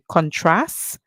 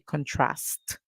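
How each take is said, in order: First: The word ends on the S sound. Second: The word ends with an audible T sound. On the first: This is the American way of saying it. "the Americans would say contrast. They would finish the word at the S sound" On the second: This is the British way of saying it. "the British English speakers would say contrast. So you would hear the T sound at the end"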